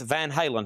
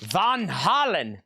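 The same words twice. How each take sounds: First: It is said in the speaker's ordinary accent. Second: It is said with a put-on German accent.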